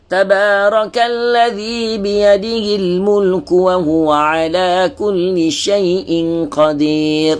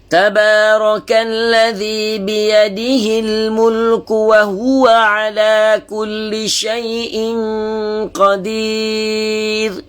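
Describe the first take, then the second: First: It is recited at a moderate pace. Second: It is recited slowly, word by word. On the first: This is the moderate tadwir style. "dia bukan taqiq, dia laju sikit" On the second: This is the careful tahqiq style for beginners. "dia baca lagi lagi lambat, tahqiq ya. Bacaan satu persatu"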